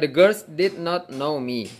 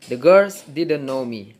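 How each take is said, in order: First: Did and not are said as two separate words. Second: Did and not are joined into one contracted word. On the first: The speaker calls it wrong. "Bisa juga dibaca the girls did not know me. Tapi nggak biasa" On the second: The speaker calls it right. "umumnya yang dibaca ini digabung, didn't jadinya"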